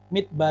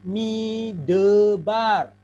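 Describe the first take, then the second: First: The word is said in two syllables. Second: The word is said in three syllables. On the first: The speaker calls it right. "terdiri dari dua suku kata, mid dan bar" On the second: The speaker calls it wrong. "Kan tiga suku kata ini"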